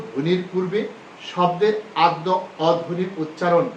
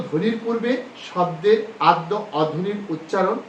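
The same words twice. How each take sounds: The two takes are said the same way.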